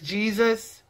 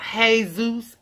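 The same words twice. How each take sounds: First: The first syllable sounds like 'gee'. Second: The first syllable sounds like 'hay'. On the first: The speaker calls it right. "if we see J-E-S-U-S. That is Jesus" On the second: The speaker calls it wrong. "It is not Jesus, H-A-Y-Z-U-S"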